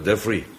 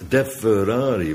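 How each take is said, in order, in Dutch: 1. De naam wordt ingekort tot twee lettergrepen. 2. De naam wordt uitgesproken met alle geschreven letters. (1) "ik heb het hem zelf horen zeggen" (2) "als je het opschrijft, schrijf je Deferari"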